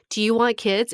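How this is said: It is asked in a bright, optimistic tone.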